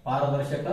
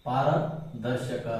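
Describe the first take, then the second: First: Said in the usual way. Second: ಪಾರದರ್ಶಕ drawn out very slowly, syllable by syllable; slow dictation. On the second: Shown as a demonstration. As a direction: dictate ಪಾರದರ್ಶಕ so students can write it. Teacher dictating term to write.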